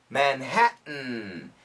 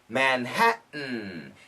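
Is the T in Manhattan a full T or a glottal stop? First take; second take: glottal stop; glottal stop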